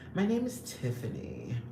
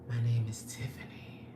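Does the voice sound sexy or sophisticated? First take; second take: sophisticated; sexy. First: It is said in a sophisticated, refined manner. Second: It is said in a sexy, sultry manner.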